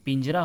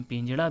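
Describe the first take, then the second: First: पिंजरा with plain R; straight-tongued R in पिंजरा; correct pronunciation. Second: पिंजड़ा with retroflex flap; hard flap ending पिंजड़ा; colloquial pronunciation. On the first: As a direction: say पिंजरा as "pinjra", tapped R. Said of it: "जबकि पिंजरा होता है". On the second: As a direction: say पिंजड़ा with curled-tongue Ṛ. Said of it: "बोलचाल की भाषा में". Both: Shown as a demonstration.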